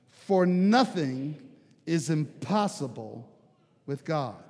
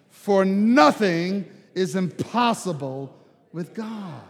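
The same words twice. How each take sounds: First: It is said calmly and plainly. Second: It is said with the most force and conviction.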